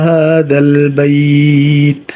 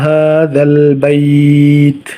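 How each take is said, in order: No difference in how they are said.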